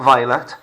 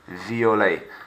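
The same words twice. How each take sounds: First: It is said with an English accent. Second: It is said with a French accent. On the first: The speaker calls it wrong. "Not violet" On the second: The speaker calls it right. "French it up"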